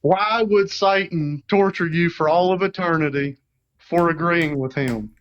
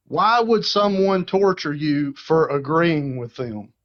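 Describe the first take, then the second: First: Country accent. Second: Said in the usual way. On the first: Shown as a demonstration. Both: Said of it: "Say it with your country accent".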